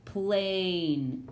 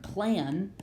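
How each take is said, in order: First: "plain" with the A saying its name, "ay"; long "ay" vowel in "plain". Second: "plan" with a short, flat-tongued A as in cat; short vowel in "plan", drawn out for teaching. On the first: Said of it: "makes this A say its name". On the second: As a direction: say "plan" with the closed-syllable vowel. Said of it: "this isn't the word plan". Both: Shown as a demonstration.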